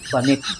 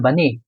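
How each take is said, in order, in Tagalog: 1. Binibigkas ang huling tunog na t. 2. Tahimik ang huling tunog na t.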